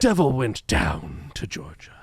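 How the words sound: It is spoken in a theatrical, put-on actor voice. "like Patrick Stewart doing Shakespeare"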